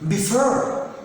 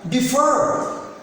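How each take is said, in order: No difference in how they are said.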